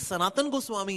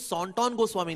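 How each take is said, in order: First: The name sounds like 'Sanatan' with open vowels. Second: The name sounds like 'Sontton' with rounded vowels. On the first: This is the name's actual form. The speaker calls it right. "ये सनातन गोस्वामी है actually" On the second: The name was misheard and written down wrongly. The speaker calls it wrong. "Bengali accent"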